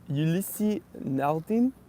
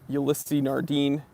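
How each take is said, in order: First: It is said with a French accent. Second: It is said with an American accent. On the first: "then I'm going to attempt to do it in French" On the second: "I'm going to read them in my American accent first"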